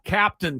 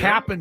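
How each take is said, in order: First: The second syllable is fully pronounced. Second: The second syllable is reduced to a short n. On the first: The speaker calls it wrong. "It is not Captain Crunch" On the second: The speaker calls it right. "It's Cap apostrophe N"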